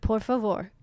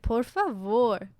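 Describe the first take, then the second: First: The phrase is said quickly and clipped. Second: The phrase is said slowly and drawn out. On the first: This is how it sounds in Portugal. "like really quick" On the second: This is how it sounds in Brazil. "like they really elongate it"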